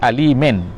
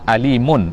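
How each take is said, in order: First: The word ends with an 'een' vowel sound. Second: The word ends with an 'oon' vowel sound. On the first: "Yang kedua dengan baca alimen, dengan baris di bawah" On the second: "Yang pertama alimun, iaitu dengan baris depan"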